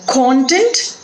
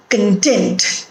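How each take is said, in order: First: First content as CON-tent; stress on first syllable. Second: Second content as con-TENT; stress on second syllable. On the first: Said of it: "different pronunciations". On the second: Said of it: "stress pattern". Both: Shown as a demonstration.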